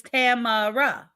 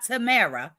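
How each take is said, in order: First: Tamara as TAM-uh-ruh, slow, with the first syllable stressed; her preferred pronunciation. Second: Tamara as tuh-MEH-ruh, stressed on the middle syllable; the other pronunciation. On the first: Host settling for chat how she says her viewer's name, slowly. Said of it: "It's Tamara". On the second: Host showing chat the version she won't use, stated plainly. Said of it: "Not Tamara". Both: Shown as a demonstration.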